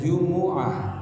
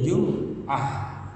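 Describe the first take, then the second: First: The m is followed by a u vowel. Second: The m is followed by an a vowel. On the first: "mimnya didomahkan" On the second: "mimnya dibaca fathah"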